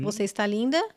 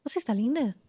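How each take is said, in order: First: Rising question tune on linda. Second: Falling statement tune on linda. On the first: Teacher showing how a question rises at the end. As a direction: ask it, lifting at the end on linda. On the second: Teacher showing the same words as a falling statement. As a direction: say it flat as a fact, dropping on linda. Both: Shown as a demonstration. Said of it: "você só muda a entonação".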